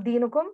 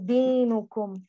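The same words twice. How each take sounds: First: The vowel after the d is shortened. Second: The vowel after the d is full. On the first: The speaker calls it wrong. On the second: The speaker calls it right. "Make sure you give complete kasra there"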